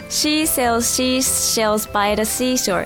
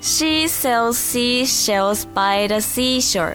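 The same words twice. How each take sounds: First: The sentence is said fast. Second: The sentence is read slowly. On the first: "早口言葉内容なんですけど、はぁチャレンジします" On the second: "ゆっくりまず読みます"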